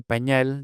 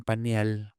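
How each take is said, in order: First: Said in the usual way. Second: "pañal" said as "panial"; ñ split into N-I. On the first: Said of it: "En lugar de". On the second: Shown as a demonstration. Linguist showing what they say for diaper, ñ as ni. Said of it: "desdoblamiento al revés, de ñ en N I".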